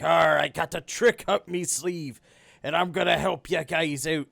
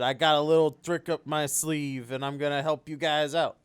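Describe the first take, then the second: First: It is said in a put-on pirate voice. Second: It is said in a plain, normal voice.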